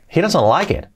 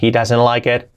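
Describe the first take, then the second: First: The sentence is said with lively intonation. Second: The sentence is said with flat intonation. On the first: The speaker calls it right. "Y le damos también entonación" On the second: The speaker calls it wrong. "Que no sea"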